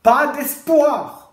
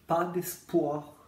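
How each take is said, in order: First: It is said loudly, like a shout. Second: It is said quietly as a flat statement.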